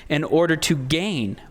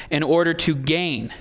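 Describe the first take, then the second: The two takes are said the same way.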